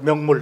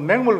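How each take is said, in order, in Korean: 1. 첫 번째 모음은 표준 'yeo' 소리예요. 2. 첫 번째 모음은 'ae' 소리예요.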